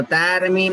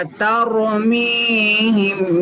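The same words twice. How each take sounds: First: तरमीम with a light, flat "tar"; thin r, faulty. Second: तरमीम slowly, thick r and stretched mee; thin t, heavy r. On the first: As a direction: show the mistake, तरमीम with a thin r. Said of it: "तरमीम नहीं पढ़ना". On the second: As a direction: say तरमीम with light t, full r, long ee. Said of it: "ता बारीक रॉ मोटा". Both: Shown as a demonstration.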